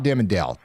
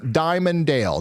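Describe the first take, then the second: First: The first syllable sounds like 'dim'. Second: The first syllable sounds like 'dye'. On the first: The speaker calls it wrong. "not Dimmondale" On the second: The speaker calls it right. "Somebody says it's pronounced Diamonddale"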